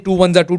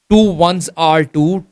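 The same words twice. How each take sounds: First: The middle word sounds like 'za'. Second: The middle word is a clear 'are'. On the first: The speaker calls it wrong. "started pronouncing as za" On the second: The speaker calls it right. "Actual pronunciation is"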